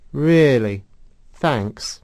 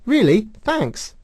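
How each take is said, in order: First: It sounds flat and sarcastic. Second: It sounds warm and genuinely grateful. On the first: The compliment is unwelcome. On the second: The compliment is welcome. "She doesn't say"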